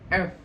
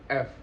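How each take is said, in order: First: The letter is articulated clearly. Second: The letter is articulated unclearly. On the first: The speaker calls it right. "pelafalannya itu harus jelas" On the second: The speaker calls it wrong. "bukan F"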